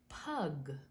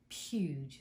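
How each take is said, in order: First: The syllable is said like 'pug' with a hard g. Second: The syllable is said like 'pyooj' with a long u. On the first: The speaker calls it wrong. "I wasn't sure how to pronounce that because I said pug, but it's really not pug" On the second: The speaker calls it right. "but it's puge, so pugilist"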